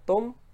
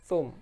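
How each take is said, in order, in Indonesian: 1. Kata itu dimulai dengan bunyi t biasa. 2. Kata itu dimulai dengan bunyi th. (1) "mereka mengucapnya tum" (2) "tulisannya pakai tha"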